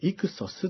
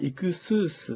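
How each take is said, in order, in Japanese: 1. 2番目の部分は短い'sos'の音です。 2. 2番目の部分は長い'suus'の音です。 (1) "イクソスっていうふうに" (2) "本当はイクスースっていうふうに発音した方がいいかもしれません"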